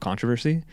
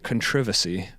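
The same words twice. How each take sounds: First: The word is pronounced in a non-British way. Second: The word is pronounced in a British way. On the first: "instead of" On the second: "I think that's how the British say it"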